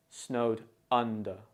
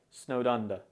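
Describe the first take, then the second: First: SNOWED UNDER in separate words, UN stressed. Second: SNOWED UNDER run together with a light D; subtle D. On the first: Teacher shows where stress falls, UN-der stressed. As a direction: pause after SNOWED, then stress the first syllable of UNDER. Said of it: "It's stressed on the first syllable or sound". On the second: Teacher shows how it usually sounds, subtle linked D. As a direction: link SNOWED into UNDER, barely touching the D. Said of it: "The D in snowed is often pronounced very subtly". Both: Shown as a demonstration.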